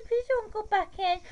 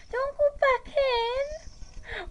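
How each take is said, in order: First: Higher whiny plea at normal volume; high upset pleading. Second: Much higher, very slow stretched-out whine; drawn-out high wail. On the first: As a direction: beg it in a high, fretful voice. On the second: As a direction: drag every word out in a high upset wail. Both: Real, not acted. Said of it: "Why am I talking like that?".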